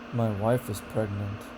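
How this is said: The intonation falls, sounding bored. The speaker is uninterested in the news. "disinterest, boredom, and disappointment has falling intonation"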